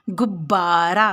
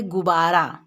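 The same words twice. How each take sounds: First: गुब्बारा with a doubled, pressed ब in the middle; stress on ब. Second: Said in the usual way. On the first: Shown as a demonstration. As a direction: lean hard on the ब in गुब्बारा, gub-baara. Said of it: "इसका उच्चारण में ब पर जोर पड़ेगा". (गुब्बारा में ब पर ज़ोर देकर, गुब्-बारा) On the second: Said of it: "अगर केवल एक ब होता तो हम लोग बोलते".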